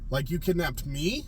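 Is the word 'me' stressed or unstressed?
stressed. The word 'me' is said with strong stress. "This is the emphasis though"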